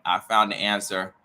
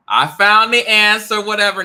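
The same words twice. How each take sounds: First: Said in the usual way. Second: High, loud gloating cry; triumphant shout. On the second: Acted. Gloating at the neighbor in a high, loud shout. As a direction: crow it out like a win.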